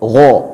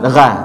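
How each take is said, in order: First: The gha sound is heavy and full. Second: The gha sound is thin and light. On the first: The speaker calls it right. "harus tebal" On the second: The speaker calls it wrong. "jangan gha"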